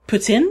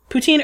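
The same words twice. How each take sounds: First: There is a slight s sound in the middle. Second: There is no s sound in the middle. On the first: The speaker calls it right. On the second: The speaker calls it wrong.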